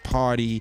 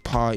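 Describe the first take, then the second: First: It is said in an American accent. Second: It is said in a British accent. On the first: The speaker calls it wrong. "I don't say party" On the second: The speaker calls it right. "I say party"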